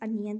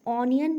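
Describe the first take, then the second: First: The first vowel is a short 'uh' sound. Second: The first vowel is an open 'aw' sound. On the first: The speaker calls it right. "It's अनियन" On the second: The speaker calls it wrong. "ऑनियन नहीं होती है"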